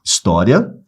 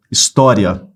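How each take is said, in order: First: História said with ria as one syllable, his-tó-ria; split as diphthong. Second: História split apart at the end, his-tó-ri-a; split as hiatus. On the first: Teacher showing the normal split of História, syllables with diphthong. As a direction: glide the i into the final a in História. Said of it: "A gente pode separar assim, que é o normal". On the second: Teacher showing the other split of História, vowels in hiatus. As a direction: pull the final i and a apart in História. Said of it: "a gente pode separar assim". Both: Shown as a demonstration.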